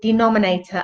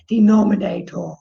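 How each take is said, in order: First: It is said in a normal voice. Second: It is said in a silly low voice.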